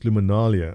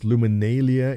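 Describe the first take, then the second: First: It is said the British way. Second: It is said the American way.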